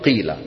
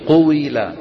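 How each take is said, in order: First: The vowel is a plain 'i' with no 'w'. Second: A 'u' is followed by a 'w' with 'i'. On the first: The first vowel was later dropped entirely. "حذفوها" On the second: This is the original heavy form. "من كسر الواو، من عم تنطق واو مكسورة"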